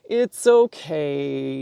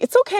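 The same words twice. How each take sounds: First: It sounds calm and reassuring. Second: It sounds tense and anxious.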